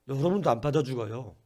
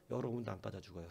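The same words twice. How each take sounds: First: 여러분도 안 빠져 죽어요 said louder, punching 여러분도 with a falling end; emphatic repeat. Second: Said in the usual way. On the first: Shown as a demonstration. Pastor repeats the promise to the congregation, louder and emphatic. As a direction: drive 여러분도 home as a firm promise.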